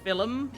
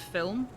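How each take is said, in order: First: The word is said with an Irish pronunciation. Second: The word is said with a standard pronunciation. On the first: "when Irish people say film" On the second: "instead of film"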